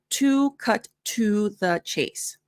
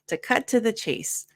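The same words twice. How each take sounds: First: The word 'to' is said fully, like 'two'. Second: The word 'to' is reduced to a weak 'tuh'. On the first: The speaker calls it wrong. "notice it's not" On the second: The speaker calls it right.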